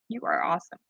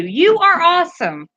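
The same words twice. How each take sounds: First: Much softer, lower "You are awesome" said to oneself; soft repeat. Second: Higher, louder, stressing "are" in "You are awesome"; emphatic thanks. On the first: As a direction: let "You are awesome" fall back quietly. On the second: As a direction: hit "are" in "You are awesome" with warm energy. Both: Real, not acted.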